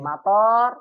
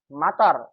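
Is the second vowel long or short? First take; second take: long; short. First: The second vowel is long. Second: The second vowel is short. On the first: It means airport. "to'nya panjang, artinya bandara" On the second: It means rain. "to'nya pendek hujan"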